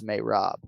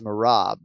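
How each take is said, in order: First: The first vowel sounds like 'ay'. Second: The first vowel sounds like 'ah'. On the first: This is how the man himself says his name. "Sounds like he says Mayrab" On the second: This is how most people say the name. "everybody says Marab"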